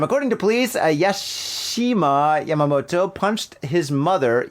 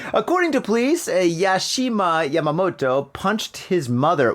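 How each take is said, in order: First: Slow reread leaning on punched; slower reread, punched stressed; slower dramatic reread. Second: Said in the usual way. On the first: Shown as a demonstration. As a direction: repeat it slowly, stressing punched. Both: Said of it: "One more time".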